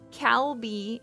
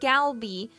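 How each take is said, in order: First: It begins with a clear K sound. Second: It begins with a clear G sound. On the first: "people will read it Calby or Galby, you know, like if they're really American" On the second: "people will read it Calby or Galby, you know, like if they're really American"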